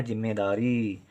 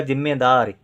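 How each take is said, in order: First: "जिम्मेदारी" with a clear ee held at the end; long final ee. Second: "जिम्मेदार" ending on r, final ee dropped; short ending. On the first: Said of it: "हमको लिखना है जिम्मेदारी". ("जिम्मेदारी" में री को लंबा करके) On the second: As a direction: cut "जिम्मेदार" off at the र. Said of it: "छोटी की मात्रा लिख दें तो". ("जिम्मेदार", अंत की ई के बिना) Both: Shown as a demonstration.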